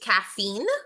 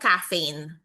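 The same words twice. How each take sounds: First: Caffeine is said the less familiar way. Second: Caffeine is said the commonly heard way. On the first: The speaker calls it right. "The correct pronunciation is caffeine" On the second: The speaker calls it wrong. "hindi kasi siya caffeine"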